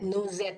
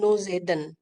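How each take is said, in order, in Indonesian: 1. Akhiran kata kerja itu tidak diucapkan, berakhir di 'ed'. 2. Akhiran kata kerja itu diucapkan sebagai 'en'. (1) "nu Z jadinya" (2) "bukan nu Zeden, no"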